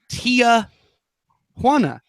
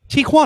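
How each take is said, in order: First: It starts with an extra syllable, 'tee-ah'. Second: It starts with a single syllable, 'tee'. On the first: The speaker calls it wrong. "people adding a letter that doesn't exist in the name" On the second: The speaker calls it right. "it is a a T and a Juana"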